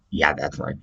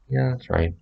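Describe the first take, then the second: First: Said in the usual way. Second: Higher sing-song yeah that's right; high breezy "Yeah, that's right."; demo of own reply. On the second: Shown as a demonstration. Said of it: "Just like that".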